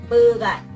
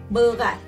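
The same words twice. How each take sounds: The two takes are said the same way.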